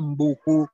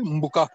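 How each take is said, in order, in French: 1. La voyelle finale est un son 'u' arrondi. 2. La voyelle finale est un son 'a' ouvert. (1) "avec le phénomène d'harmonie vocalique ça devient Mbuku" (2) "en réalité, Mbuka"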